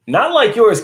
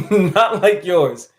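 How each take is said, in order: First: Higher and louder teasing jab; playful higher call-out; teasing exclamation. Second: Slow, laughing through the words; giggling repeat, slowed down. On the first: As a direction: poke fun at his accent. Teasing a viewer's accent. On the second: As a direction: chuckle it out slowly. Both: Real, not acted.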